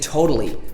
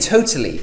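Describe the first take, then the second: First: The middle T sounds soft like a D. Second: The middle T is a crisp T sound. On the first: The speaker calls it wrong. "In other accents, they say totally" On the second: The speaker calls it right. "We would say totally"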